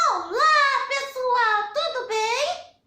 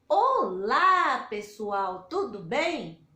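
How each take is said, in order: First: It is said in a put-on character voice. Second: It is said in a normal, natural voice. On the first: The puppet is doing the greeting. "Agora a Lilica" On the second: The presenter is greeting in person. "Eu vou cumprimentar vocês"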